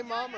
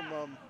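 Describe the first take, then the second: First: "mom" with an open ah sound; open vowel in mom. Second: "mum" with a short uh sound; short vowel in mum. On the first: Co-host repeating the pronunciation question, open-vowel "mom". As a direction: make "mom" distinct by opening the vowel. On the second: Co-host repeating the pronunciation question, short-vowel "mum". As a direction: make "mum" distinct with a closer vowel. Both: Shown as a demonstration. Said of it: "do you say mom or mum".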